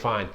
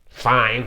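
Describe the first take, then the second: First: It is said in a plain neutral way. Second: It is said with an annoyed attitude. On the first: The person is simply okay. "she might just be saying "fine."" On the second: The person is upset. "you read it as "fine," like attitude-wise"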